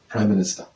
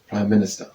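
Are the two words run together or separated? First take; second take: run together; run together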